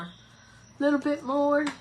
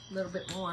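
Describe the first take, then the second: First: Slow playful voice. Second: Said in the usual way. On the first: Pretend. Repeat in slow put-on voice.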